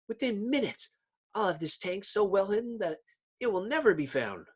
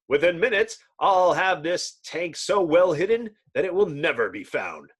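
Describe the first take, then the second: First: It is read in a mismatched character voice. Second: It is read in the Miracle Man's villain voice.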